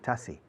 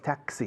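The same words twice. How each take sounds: First: The x sounds like a plain s. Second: The x sounds like ks, as in English. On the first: "many people in Spain say taxi" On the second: "But in any case, taxi"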